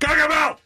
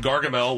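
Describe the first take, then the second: First: The name is exclaimed loudly and forcefully. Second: The name is said flatly, without exclamation.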